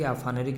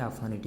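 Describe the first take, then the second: First: "aphanic" with an r in the ending, like phaneric: aphanerik; mistaken aphaneric. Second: "aphanic" with a t in the ending: aphanitik; correct term aphanitic. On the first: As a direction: say "aphanic" wrongly as a-fa-ne-rik. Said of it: "ज़बरदस्ती aphanic नहीं बोलिएगा". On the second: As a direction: say "aphanic" as a-fa-NI-tik, ending in -itik. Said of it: "इसको ज़बरदस्ती aphanic नहीं बोलिएगा". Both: Shown as a demonstration.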